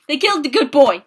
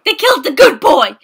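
First: Said in the usual way. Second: Louder upset repeat. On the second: Real, not acted.

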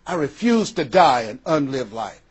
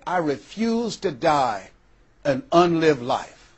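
First: Said in the usual way. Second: Slow, deliberate "I refuse to die an unlived life"; slow resolve. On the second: Retold or imitated. Dying woman at her kitchen table vowing to live, slow. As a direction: weigh every word of "refuse" slowly.

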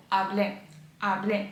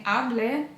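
First: Hablé with firm stress on the final É; stress on final syllable. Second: Hablé stressed on its first syllable; wrong first-syllable stress. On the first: Teacher modelling correct Spanish, hablé stressed on the last syllable. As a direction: land the stress on the end of hablé. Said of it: "І наголоси теж важливі". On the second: Teacher showing students the mistake, hablé stressed on HA. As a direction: misplace the stress on hablé, onto HA. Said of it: "наголоси теж важливі. Не hablé". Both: Shown as a demonstration.

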